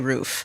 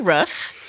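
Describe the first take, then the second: First: It is said with an East Coast pronunciation. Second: It is said with a Michigan pronunciation. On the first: "moved to the East Coast and I've been forced to say roof" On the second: "I used to say roof because I am from Michigan"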